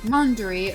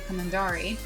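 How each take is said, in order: First: The stress is on the first syllable. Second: The stress is on the last syllable. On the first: "the stress is on the first syllable" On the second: "or last syllable"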